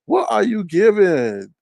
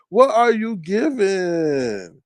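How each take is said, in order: First: Slow, loud, drawn-out taunt; mocking question. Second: Slower, stretched-out taunt; mocking question. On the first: Roasting her birthday, slow mocking question. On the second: Roasting her birthday, even slower mocking question. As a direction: stretch every word to mock. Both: Real, not acted.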